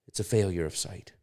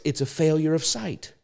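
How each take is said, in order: First: Softer, lowered voice after a long pause; hushed repeat. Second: Higher pitch, falling on the last word; emphatic key point. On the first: Preacher letting the key point settle, low and quiet. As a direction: let "It's a failure of sight" sink in quietly. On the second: Preacher correcting the excuse to his listeners, high and emphatic. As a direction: land "It's a failure of sight" high and firm. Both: Real, not acted.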